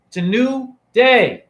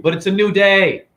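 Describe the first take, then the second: First: "new" and "day" slow, high and set apart; emphatic repeat. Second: Said in the usual way. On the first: Real, not acted. Host driving the point home to viewers, emphatic and slow. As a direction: punch "new", pause, then land hard on "day".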